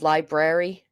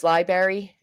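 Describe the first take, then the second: First: Second "library" with both Rs, "lie-brary"; library with the BR sounded; full-R pronunciation. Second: First "library" without the first R, "lie-berry"; dropped-R pronunciation. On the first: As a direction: say library fully, "LIE-brair-ee". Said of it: "instead of library". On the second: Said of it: "My pet peeve is library". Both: Shown as a demonstration.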